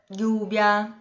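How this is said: The double L sounds like a 'y'. This is the typical way in Spain. "na Espanha o mais característico é o som do I"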